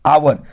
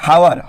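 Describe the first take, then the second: First: The word begins with a vowel sound. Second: The word begins with an h sound. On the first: The speaker calls it right. "इसका जो sound है वो आवर होता है" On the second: The speaker calls it wrong. "इसको देखने से आप लोग पढ़ेंगे हावर, ह लगेगा, लेकिन है नहीं"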